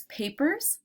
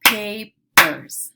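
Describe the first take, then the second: First: Said in the usual way. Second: "Papers" loud, split as pa, pers with a gap; segmented into syllables. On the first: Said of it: "I'll say the word". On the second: Shown as a demonstration. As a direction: punch out the two syllables of "Papers". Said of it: "segment words into syllable parts".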